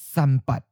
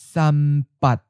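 First: It is said at a natural, normal speed. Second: It is said slowly and carefully. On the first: "First natural speed" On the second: "and then slowly"

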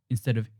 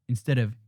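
Both takes have the same delivery.

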